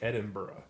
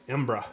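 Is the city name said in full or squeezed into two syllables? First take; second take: full; two syllables. First: The name is said with all its syllables. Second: The name is squeezed into two short syllables. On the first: The speaker calls it wrong. "don't even say it like Edinburgh" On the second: The speaker calls it right. "Say it like Embra"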